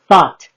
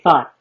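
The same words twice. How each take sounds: First: The T sound is clearly pronounced. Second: The T sound is dropped. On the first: This is how other states say it. "other states pronounce the T's" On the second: This is how Los Angeles speakers say it. "we say thought"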